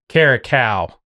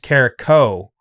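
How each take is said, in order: First: The name ends with a 'cal' sound. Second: The name ends with a 'co' sound. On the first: The speaker calls it wrong. "I'm always saying Eric Caracal" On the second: The speaker calls it right. "it's hard for me to pronounce Carrico"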